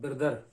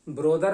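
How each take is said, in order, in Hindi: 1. पहला स्वर छोटी 'uh' की आवाज़ है। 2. पहला स्वर 'o' की आवाज़ है। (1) "ये लफ्ज होता है ब्रदर" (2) "ब्रोदर नहीं होता ये लफ्ज"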